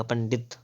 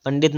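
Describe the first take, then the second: First: पंडित with retroflex ṇ before ḍ; tongue curled back in पंडित; correct pronunciation. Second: पंडित with a dental n; plain n in पंडित; wrong pronunciation. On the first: Teacher correcting, पंडित with retroflex nasal. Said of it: "पंडित इस प्रकार से". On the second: Teacher showing the error, पंडित with dental n. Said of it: "पंडित नहीं है". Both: Shown as a demonstration.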